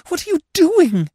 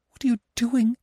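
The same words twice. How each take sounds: First: Much higher and louder, near a scream; horrified cry. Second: Much higher, alarmed cry; shocked protest, pushing him away; cried in horror. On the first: Anna to Gurov kissing her, loud horrified cry. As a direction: push him away in horror. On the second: Anna to Gurov kissing her, high horrified cry. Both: A narrator's reading. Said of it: "she cried in horror".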